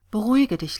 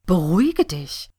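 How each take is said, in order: First: Understated calming "Beruhige dich"; mild soothing murmur, voiced. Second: Acted outraged echo of "beruhige dich"; indignant ranting. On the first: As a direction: reassure a friend, first word lifted then falling. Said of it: "raunte sie". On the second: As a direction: throw "beruhige dich" back, louder, rising in disbelief. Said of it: "wetterte sie". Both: A narrator's reading.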